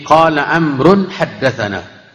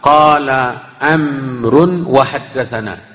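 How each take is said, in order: First: No 'wa' sound comes before 'haddatsana'. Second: A 'wa' sound comes before 'haddatsana'. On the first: The speaker calls it right. "Jadi qala Amrun haddatsana. Ini yang perlu diperbaiki" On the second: The speaker calls it wrong. "Wawnya itu tidak berharakat"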